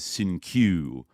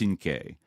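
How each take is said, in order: First: The name ends with a 'kyoo' sound. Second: The name ends with a 'kay' sound. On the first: This is how the name bearer said it. The speaker calls it wrong. "he mispronounced it as Sinkyu" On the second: This is the original name's pronunciation. The speaker calls it right. "should be pronounced Sinke"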